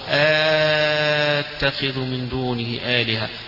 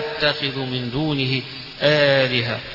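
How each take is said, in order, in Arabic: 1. الهمزة الثانية تصير مدًّا طويلًا ممتدًّا. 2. الهمزة الثانية تُخفَّف، ولا يأتي بينها وبين الأولى حرف مدّ. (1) "بالمد الطويل فيها التقاء الساكن" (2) "يبقى الأولى همزة الثانية همزة مخففة"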